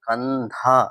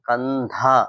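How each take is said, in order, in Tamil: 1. கடைசி அசையில் மூச்சொலி ஹ ஒலி இருக்கு. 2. கடைசி அசையில் மூச்சொலி ஹ ஒலி இருக்கு.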